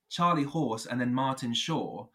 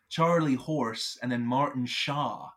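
First: It is said in a British accent. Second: It is said in an American accent.

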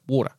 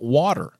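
First: The word is said in a broad Australian accent. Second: The word is said in an American accent. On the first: This is the speaker's natural way of saying it. "this broad, galah of an accent" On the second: This is said so Americans can understand. "put on the fake American accent simply to be understood"

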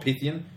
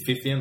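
First: The name begins with a P sound. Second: The name begins with an F sound. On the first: The speaker calls it wrong. "It's not Pythian" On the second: The speaker calls it right. "It's actually Pythian, like phone with a PH"

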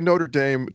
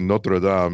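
First: It is said with an American accent. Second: It is said with a French accent.

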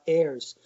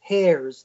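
First: The word begins with a vowel sound. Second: The word begins with an h sound. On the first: The word refers to those who inherit. The speaker calls it right. "not heirs" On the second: The word heard is taken for a different word. The speaker calls it wrong. "most people said heirs"

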